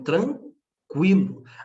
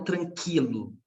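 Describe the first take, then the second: First: The u after the q is pronounced. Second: The u after the q is silent. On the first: The speaker calls it right. "existe uma participação do U aqui" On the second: The speaker calls it wrong. "Ou eu falo tranquilo, negativo"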